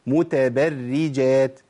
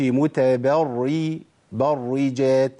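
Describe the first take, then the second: First: متبرجات slow, doubled r thin throughout; correct light r. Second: متبرجات slow, first r thickened after "ba"; wrong heavy r. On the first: Teacher giving another example, slow light r in متبرجات. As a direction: recite متبرجات slowly, keeping the r light. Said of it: "نجيب تاني مثال تاني". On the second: Teacher warning what not to say, heavy r in برجات. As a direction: darken the برّ of متبرجات, drawn out. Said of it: "ما أقولش". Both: Shown as a demonstration.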